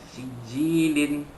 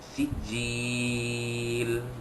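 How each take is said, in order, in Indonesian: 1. Kata ini diakhiri dengan bunyi n tambahan. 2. Kata ini berakhir dengan konsonan akhir yang tidak terdengar. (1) "Kalau kita sambung wasal" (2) "kalau kita wakafkan"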